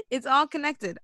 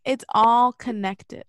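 First: Said in the usual way. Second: Slow, louder mock revelation; mock profound. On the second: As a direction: drag it out like a big revelation. Mock conspiracy line.

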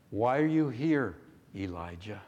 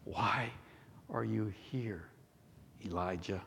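First: Questioning tone. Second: Hushed, halting question with pauses; gentle questioning. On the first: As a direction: ask it firmly, then soften on the name. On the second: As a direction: ask it softly and low, word by word. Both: Acted. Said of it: "Listen to the tone".

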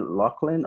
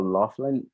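First: "Laughlin" with a K in the middle, LOCK-lin; K sound in Laughlin. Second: "Laughlin" with an F in the middle, LOFF-lin; F sound in Laughlin. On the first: Host checks guest's surname, offering "Laughlin" as LOCK-lin. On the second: Host checks guest's surname, offering "Laughlin" as LOFF-lin. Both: Shown as a demonstration. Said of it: "is it Laughlin or Laughlin".

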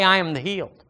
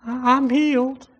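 First: Said in the usual way. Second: High-pitched, hesitant mock attempt; unconvinced declaration. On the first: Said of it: "So go ahead and say". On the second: Shown as a demonstration. Preacher mimicking a doubter claiming healing, high and unconvinced. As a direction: stumble into a small, high claim without conviction. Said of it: "You gotta say it with a conviction".

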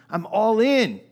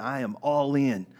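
First: Loud excited vow; fervent shout. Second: Said in the usual way. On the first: Retold or imitated. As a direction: shout the pledge high and loud. Peter pledging loyalty, repeated louder.

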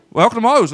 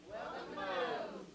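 First: Loud bright restaurant welcome; cheery greeting. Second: Faint, slow, half-hearted mumble; weak response. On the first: Shown as a demonstration. Pastor showing how Moe's staff greet, cheery and loud. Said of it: "What do they say?". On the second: Real, not acted. Congregation answering the pastor, weak and faint. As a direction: barely say it back. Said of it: "you're weak".

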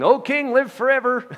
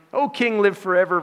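First: High, loud call up from the pit. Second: Calling up. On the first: Daniel calling up from the den to the king, loud. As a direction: shout it up to the king above. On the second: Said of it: "repeated call to king". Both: Acted.

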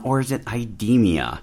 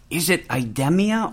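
First: IDEMIA with long E, as eye-DEE-mee-uh; alternative pronunciation. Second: IDEMIA with short E, as eye-DEM-ee-uh; pronunciation demo. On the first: Host offers guest the other way, IDEMIA with a long E. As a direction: say IDEMIA with its stressed E as in "deem". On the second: Host asks guest how the company is pronounced, demonstrating IDEMIA with a short E. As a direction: say IDEMIA with its stressed E as in "gem". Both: Shown as a demonstration. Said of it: "I've heard it pronounced both ways".

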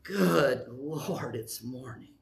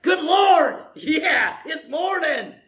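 First: Low, sinking, dragging grumble; mock dreary morning complaint; grumpy morning groan. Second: High, loud, delighted cheer; hammed-up happy wake-up cry; joyful morning shout. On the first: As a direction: groan it like you hate waking up. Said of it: "First one is". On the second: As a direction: shout it like the day is a gift. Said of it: "the other one is".

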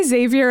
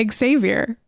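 First: Xavier begun with a Z, "ZAY-vee-er"; Xavier without the X. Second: Xavier begun with a sounded X, "ex-ZAY-vier". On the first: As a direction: say Xavier as two syllables, "ZAYV-yer". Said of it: "I say Xavier and you say". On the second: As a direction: say Xavier in three syllables, "ex-ZAYV-yer". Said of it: "you say Xavier". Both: Shown as a demonstration.

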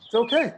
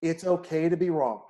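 First: Okay lifted high and louder; It's okay, punched up high; emphatic reassurance. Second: Said in the usual way. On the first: Real, not acted. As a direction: lean hard into okay, pitched up.

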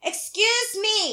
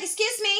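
First: Very slow "Excuse me", stress on excuse and a falling end; drawn-out excuse me. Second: Sharp, high "Excuse me" with stress on me; quick indignant "Excuse me". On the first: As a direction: stretch "Excuse me" slowly, in disbelief. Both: Retold or imitated. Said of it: "I was like".

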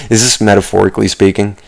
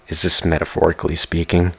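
First: Said in the usual way. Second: Hushed near-whisper question. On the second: Real, not acted. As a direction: drop to a whisper as if musing to yourself. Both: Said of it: "I'm whispering again".

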